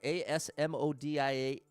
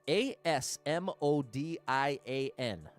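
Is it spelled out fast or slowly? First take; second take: fast; slowly. First: The letters are spelled out fast. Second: The letters are spelled out slowly.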